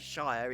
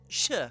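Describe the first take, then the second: First: The ending is said in full with its vowel. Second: The ending is cut short to a brief sound. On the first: The speaker calls it wrong. "We don't bother with shire" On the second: The speaker calls it right. "It's sh at the end"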